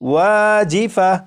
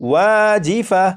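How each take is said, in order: First: The word ends with an 'h' sound. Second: The word ends with an 'h' sound.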